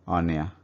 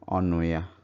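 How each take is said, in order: First: The middle u sound is dropped. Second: The middle u sound is kept.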